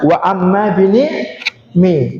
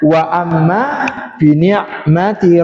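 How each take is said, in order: First: The last word is cut short at a stop. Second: The last word keeps its full ending, flowing on. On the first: The reader stops at this word. "Ketika wakaf maka dibaca" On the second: The reader continues into the next words. "Kalau dibaca wasol"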